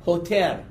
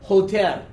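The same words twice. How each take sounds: No difference in how they are said.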